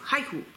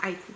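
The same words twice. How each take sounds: First: The word starts with a clear h sound. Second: The word starts with a vowel, no h. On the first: The speaker calls it right. "il faut prononcer le H" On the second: The speaker calls it wrong. "pas haiku"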